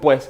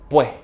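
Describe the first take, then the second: First: The final s is pronounced as a clear s. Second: The final s is replaced by a breath. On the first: "Muchas personas dicen pues en español" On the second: "el venezolano most likely will say pues ... Do you hear that breath?"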